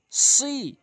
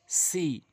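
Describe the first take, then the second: First: সি with emphatic s, high pitch; thick, raised সি; rounded heavy সি. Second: Said in the usual way. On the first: Shown as a demonstration. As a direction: round the mouth on the s of সি. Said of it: "সতে মুখ গোলাকার হবে". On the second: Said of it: "সিনটি মুখ ওসার হবে".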